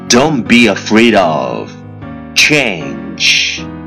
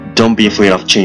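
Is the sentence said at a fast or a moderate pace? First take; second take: moderate; fast. First: The sentence is said at a moderate pace. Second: The sentence is said very fast in one breath. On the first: "let's repeat after me 句子跟我读" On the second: "一口气最快语速"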